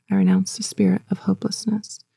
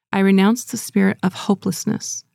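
First: Breathy whispered renunciation; whispered repeat. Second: Said in the usual way. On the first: Shown as a demonstration. Congregation echoing the preacher's renunciation, whispered. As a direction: whisper it back. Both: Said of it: "repeat after me".

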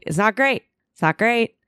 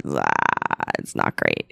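First: Higher, lilting mock repeat with rising ends; high sing-song verdict. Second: Much lower, dry mock narrator voice; deep deadpan verdict. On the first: Repeating to herself while dissociating, high lilting mock repeat. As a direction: bounce it up, lightly ironic. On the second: Watching herself from outside as a third party, deep dry mock verdict. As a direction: drop way down and state it flatly. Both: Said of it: "you go".

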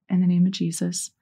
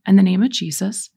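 First: Prayer response. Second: Firm lead line for others to echo; leading a prayer. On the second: Leading listeners in renouncing spirits, firm prayer lead. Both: Shown as a demonstration. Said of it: "repeat after me".

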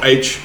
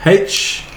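First: Said in the usual way. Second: "H" said as haitch; "H" as haitch, with an audible h; aspirated letter name. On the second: Real, not acted. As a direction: sound the breathy h at the front of "H". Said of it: "Oh, H, sorry".

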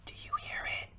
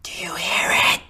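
First: Breathy hushed whisper; barely voiced, secretive. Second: Louder whisper meant to be heard; theatrical loud whisper; stage whisper. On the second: Acted. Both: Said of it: "Stage whisper, buddy".

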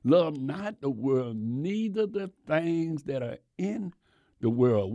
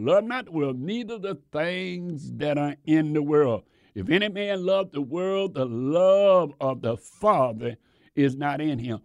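First: Slow, measured quoting of the verse; slow scripture reading. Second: Preached scripture. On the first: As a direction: read the verse deliberately to the congregation. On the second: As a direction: proclaim the verse to the church. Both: Shown as a demonstration. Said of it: "the scripture where it said".

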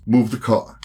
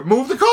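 First: Said in the usual way. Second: Mocking high echo. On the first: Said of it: "he says". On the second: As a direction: parrot the order back, higher. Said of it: "and I go".

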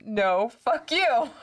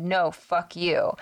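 First: Higher, drawn-out defiant comeback; slow, raised, playful defiance; mock board reply. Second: Said in the usual way. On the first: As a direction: stretch out the board's retort with a lift. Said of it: "and it spelled". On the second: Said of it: "in my head".

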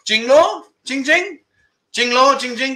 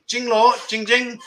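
First: Jing Law and Jing Jing answered higher, as Andy in the club; "Jing Law, Jing Jing" tossed back in a raised, playful voice; Andy answers the girl's compliment, a playful Thai comeback; Thai reply. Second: Said in the usual way. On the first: Acted. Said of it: "and he answers back". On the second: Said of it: "So you don't say the whole thing".

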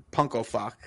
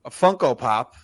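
First: "Punko Fock" garbled with the P and F sounds swapped; tongue-slip flub. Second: Said in the usual way. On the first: Real, not acted. Podcast host, plugging a figure, garbles the name "Punko Fock" with P and F swapped. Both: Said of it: "The fuck is going on today?".

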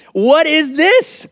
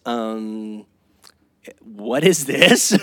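First: High, loud, drawn-out mock disbelief with a laugh; the wife's voice shoots up in amused outrage. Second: A drawn-out, doubtful wife asking slowly; low and slow, a mild mock frown; puzzled wife. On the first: Wife repeating at the groceries, higher laughing disbelief. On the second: Wife unpacking the bag, slow puzzled question. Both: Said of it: "she says".

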